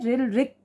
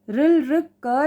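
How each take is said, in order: First: The final consonant is said bare, without a vowel. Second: The final consonant is followed by a full vowel. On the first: The speaker calls it right. "रिल रिक पढ़ा है" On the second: The speaker calls it wrong. "नहीं पढ़ा है"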